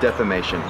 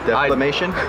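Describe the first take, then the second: First: No L sound follows the first syllable. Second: An L sound follows the first syllable. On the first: The speaker calls it right. "There's no L in that word" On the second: The speaker calls it wrong. "There's no L"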